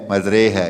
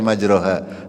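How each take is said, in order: First: The vowel after the r sounds like 'e'. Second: The vowel after the r sounds like 'a'. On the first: The speaker calls it right. "harus dibaca majre ya" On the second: The speaker calls it wrong. "tidak boleh kita membaca majroha"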